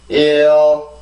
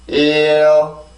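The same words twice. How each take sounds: No difference in how they are said.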